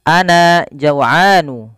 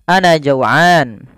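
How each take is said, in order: First: The word ends with an added vowel. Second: The word ends without the added vowel.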